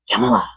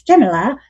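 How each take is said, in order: First: Said in the usual way. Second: Put-on Jamila as CHEM-ila with a Hong Kong accent, rising at the end; a light Hong Kong accent on Jamila. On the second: Colleague Raven leaning over, calling Jamila in a Hong Kong accent. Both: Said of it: "'cause she has a Hong Kong accent".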